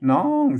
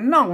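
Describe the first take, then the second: First: The word has a long, drawn-out tone. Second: The word has a tho tone. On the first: This is the Chiang Mai Yuan way of saying it. "เสียงตีไหมน้องเสียงยาวนะ" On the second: This is the Tai Lue way of saying it. "เพิ่นออกได้แค่เสียงโทนะครับ"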